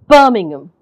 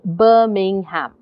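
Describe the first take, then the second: First: The middle syllables are swallowed and barely heard. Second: Every syllable is said slowly and evenly. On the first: "you're in between, you're just not hearing" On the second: "if I said that slowly, if I said that without the stress"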